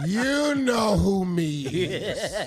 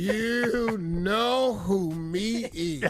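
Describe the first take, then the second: First: Put-on slow slurred drunk caller; drunk dialing. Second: Put-on very slow slurred drunk caller; drunk dialing. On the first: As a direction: drag it out like a drunk call. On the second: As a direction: stretch it out, drunk on the phone. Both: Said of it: "it sounds like something like this".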